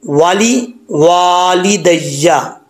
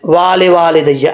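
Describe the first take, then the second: First: वाली वाली दैया slowly, first वा short, second वा stretched; short then long. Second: वाले वाले दैया with the first वा wrongly stretched; mistaken long first vowel. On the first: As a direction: keep the first वा brief and hold the second. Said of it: "पहले वाव को लंबा नहीं करना". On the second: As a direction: lengthen the first वा as a learner's mistake. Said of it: "पहले वाव के बाद अलिफ पढ़ जाते हैं". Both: Shown as a demonstration.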